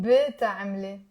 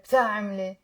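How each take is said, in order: First: بتعملي with a full vowel after the B, bil-ta-am-le; بتعملي opening on a clear extra syllable; version to avoid. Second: بتعملي with B and T together, no vowel between; low بتعملي starting on a tight "bt"; joined bt. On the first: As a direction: separate B from T in بتعملي with an added vowel. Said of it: "So we avoid saying". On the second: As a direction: run B straight into T at the start of بتعملي. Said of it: "not easy to pronounce bt, bt together". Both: Shown as a demonstration.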